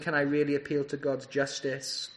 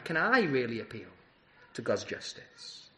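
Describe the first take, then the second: First: The word I is not stressed. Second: The word I is stressed. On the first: It asks whether such an appeal is possible at all. "So that's one question" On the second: It asks whether this particular person is eligible to appeal. "The emphasis on the word I"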